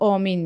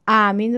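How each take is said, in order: First: The first vowel sounds like 'o'. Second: The first vowel sounds like 'a'. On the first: This is how Tajiks say it. "ما تاجیک ها الف رو یعنی ا رو او میگوییم" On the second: This is the standard form. "ما تاجیک ها الف رو یعنی ا رو او میگوییم"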